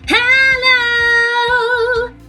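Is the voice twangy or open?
twangy. The voice sounds bright and twangy. "sometimes we want more twang"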